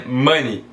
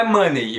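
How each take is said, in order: First: MONEY ending in an "ee" sound, "muh-nee"; E not pronounced. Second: MONEY wrongly ending "muh-ney"; mispronounced with E. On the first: Teacher giving the correct pronunciation, silent E. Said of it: "você não pronuncia esse E". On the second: Teacher showing the mistake to avoid, E pronounced. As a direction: sound out the E in "money". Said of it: "não é money". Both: Shown as a demonstration.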